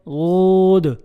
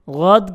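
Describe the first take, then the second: First: The vowel is said with rounded lips. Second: The vowel is said with unrounded lips. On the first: The speaker calls it wrong. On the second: The speaker calls it right.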